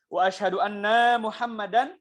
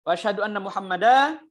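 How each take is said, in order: First: The word 'anna' is drawn out long. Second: The final syllable 'dan' is drawn out long. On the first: It says that I am Muhammad. "Atau annanya dipanjangkan" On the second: It says there are two Muhammads. "Dan-nya dipanjangkan"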